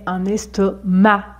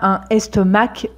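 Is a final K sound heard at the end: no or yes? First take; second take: no; yes. First: The final C is silent. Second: The final C is pronounced as K. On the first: The speaker calls it right. "mais un estomac. Ici, on ne prononce pas le C" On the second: The speaker calls it wrong. "On ne dit pas un estomac"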